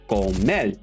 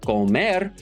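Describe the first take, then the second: First: The word ends with an L sound. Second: The word ends with an R sound. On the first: "they'll say comer" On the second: "instead of comer"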